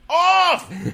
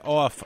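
First: The word is shouted forcefully, with exclamation. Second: The word is said flatly, without exclamation. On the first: The speaker calls it right. "because there's the exclamation point. We're supposed to say it like" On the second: The speaker calls it wrong. "I don't think we've been saying it right"

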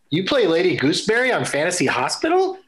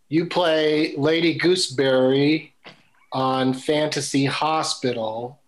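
First: It ends with a rising question tune. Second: It ends with a falling statement tune.

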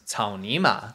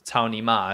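First: Each syllable is said with a distinct tone. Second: The syllables are said flat, without distinct tones. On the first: It names an animal, the grass mud horse. "grass, mud, horse" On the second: It can sound like a crude insult. "I'll say it without tones"

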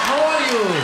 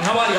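First: It is said slowly, in an Iranian accent. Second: It is said fast, in an Arab accent.

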